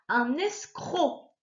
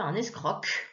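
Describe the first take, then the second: First: The final C is silent. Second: The final C is sounded as a K. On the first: The speaker calls it right. "j'entends juste O. Le C ne fait pas du bruit" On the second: The speaker calls it wrong. "on ne dit pas"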